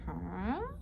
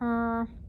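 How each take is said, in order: First: The voice rises at the end. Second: The voice stays level or falls at the end. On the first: The speaker calls it right. "your voice is supposed to go up, like a question" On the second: The speaker calls it wrong. "instead of just going"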